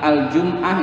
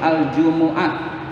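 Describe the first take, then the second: First: No vowel is heard after the m sound. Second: A short u vowel follows the m sound. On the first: The speaker calls it wrong. "itu salah" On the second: The speaker calls it right. "Yang betul"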